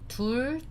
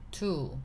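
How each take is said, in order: First: The word ends with a final consonant sound. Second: The word ends with a vowel sound. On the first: "둘 turns to 두" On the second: "removing the bottom consonant"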